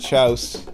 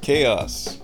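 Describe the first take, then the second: First: The word is said as one syllable. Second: The word is said with two syllables. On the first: The speaker calls it wrong. "not chouse" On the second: The speaker calls it right. "The word chaos is pronounced chaos"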